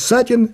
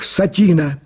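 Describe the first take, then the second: First: The stress is on the first syllable. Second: The stress is on the second syllable. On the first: The name refers to the character from the play. The speaker calls it right. "Сатин есть Сатин из пьесы «Горького на дне»" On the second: The name sounds like the fabric satin. The speaker calls it wrong. "Почему он поставил ударение на 2-й гласной"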